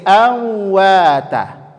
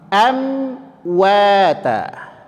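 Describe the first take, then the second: First: The m is hidden without closing the lips. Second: The m is clearly closed with both lips. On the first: The speaker calls it wrong. "Contohnya menjadi awwata" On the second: The speaker calls it right. "maka tetap tutup bibirnya dulu"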